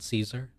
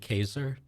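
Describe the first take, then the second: First: The C is a soft S sound. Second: The C is a hard K sound. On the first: The speaker calls it wrong. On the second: The speaker calls it right. "the C in Latin is always hard, a hard C, right? It's actually"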